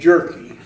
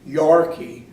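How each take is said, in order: First: The name begins with a J sound. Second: The name begins with a Y sound. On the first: This is the pronunciation given at immigration. "they changed it to Jerky" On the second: This is the family's original pronunciation. "they pronounced it Yorkie, is the way it was supposed to be"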